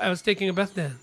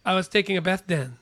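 Both takes have the same delivery.

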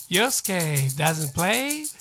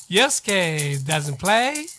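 Both takes have the same delivery.

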